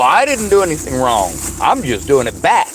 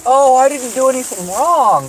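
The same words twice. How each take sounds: First: Passive aggressive retort. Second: Higher, louder, mock-innocent put-on voice; mocking innocent whine. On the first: Retold or imitated. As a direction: own voice, flat mock innocence. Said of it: "And I go". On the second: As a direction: sneer it like a fake-innocent woman. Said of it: "And then you say".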